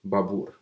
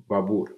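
First: The name is said with a Russian accent. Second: The name is said with a Russian accent.

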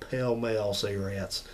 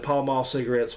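First: Pall Mall is pronounced unlike its spelling. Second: Pall Mall is pronounced the way it is spelled. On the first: The speaker calls it right. "we all say ... It's not spelled that way" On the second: The speaker calls it wrong. "instead of saying"

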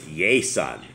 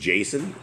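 First: The name begins with a Y sound. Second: The name begins with a J sound. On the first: This is the Spanish pronunciation. "In Spanish, it's Yason. And it's because the J's sound like a Y" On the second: This is the English pronunciation. "My name is Jason in English"

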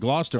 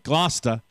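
First: The name is said in an ordinary pronunciation. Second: The name is said in the local pronunciation. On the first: The speaker calls it wrong. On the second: The speaker calls it right.

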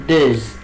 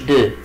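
First: The word ends with a z sound. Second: The word ends on a vowel, with no z. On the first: The speaker calls it right. "ليه قلت دوز؟ لأن الإكس لما يجي بعدها فاولز منطقها زد" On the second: The speaker calls it wrong. "ليه ما قلتش دو؟"

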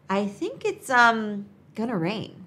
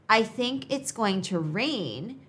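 First: "Going to" is reduced to "gonna." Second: "Going to" is said fully, as two words. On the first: It sounds more casual and natural. "you could try" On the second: It sounds more formal. "instead of saying"

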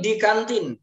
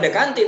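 First: The first syllable is said as English 'dee'. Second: The first syllable is said as Indonesian 'de'. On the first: The speaker calls it right. "Karena bahasa Inggrisnya kan D" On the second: The speaker calls it wrong. "bukan Dekantin"

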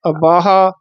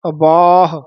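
First: The word ends with an added long aa vowel. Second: The word ends on a released h sound. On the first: The speaker calls it wrong. "ਇਹ ਕਿਤੇ ਹਾਹੇ ਦੇ ਅੱਗੇ ਕੰਨਾ ਹੀ ਨਾ ਲੱਗ ਜੇ" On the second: The speaker calls it right. "ਬੱਬੇ ਦਾ ਕੰਨਾ ਵਧਾ ਦੇਣਾ, ਹਾਹੇ ਤੇ ਆਵਾਜ਼ ਛੱਡ ਦੇਣੀ ਹੈ"

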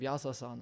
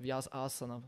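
First: The word is said in a casual, everyday pronunciation. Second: The word is said in a careful, precise pronunciation. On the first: This is how the group usually says it. The speaker calls it wrong. "wir sagen Vyasasana" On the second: This is the proper way to say it. The speaker calls it right. "aber Vyasasana würde man richtig sagen"

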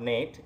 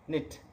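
First: The vowel is long, like in 'late'. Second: The vowel is short, like in 'sit'. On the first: The speaker calls it wrong. "not Nate" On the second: The speaker calls it right. "it is knit"

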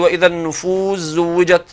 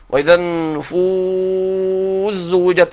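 First: The long vowel in النفوس is held briefly. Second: The long vowel in النفوس is held longest.

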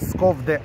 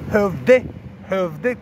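First: The name begins with a clear sk sound. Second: The name begins with a soft h-like sound. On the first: This is how the name is written in apps. "cum sunt notați în aplicații" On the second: This is how the locals say the name. "cum pronunță ei"

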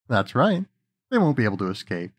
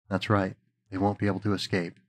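First: It is said in the voice used for Faust. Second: It is said in the voice used for Mephisto.

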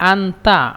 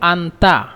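The two takes are said the same way.

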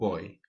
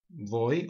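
First: The word begins with a soft B sound. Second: The word begins with a V sound. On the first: "it's a very soft B" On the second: "you can pronounce it as a V"

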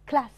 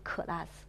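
First: The c and l are joined without a vowel. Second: A vowel is inserted between c and l. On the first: The speaker calls it right. "而是class" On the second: The speaker calls it wrong. "不要发成class"

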